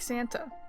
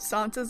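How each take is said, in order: First: It is said like Christmas Santa. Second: It is not said like Christmas Santa. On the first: It is a way of saying the name the speaker rejects. The speaker calls it wrong. "I refuse to pronounce it like Santa" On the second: It follows how the character introduced his name. The speaker calls it right. "I am pronouncing it this way because that is how he introduced it"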